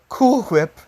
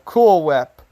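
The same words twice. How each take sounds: First: It is said in an imitated character voice. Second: It is said in a plain, normal voice.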